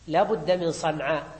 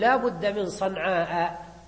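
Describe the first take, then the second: First: The last vowel is short, with no glottal stop. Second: The last vowel is long, ending in a glottal stop. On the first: The poet shortened the word to fit the meter. "في صنعاء مقصور" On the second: This is the word's original full form. "يعني ينطق بالهمزة"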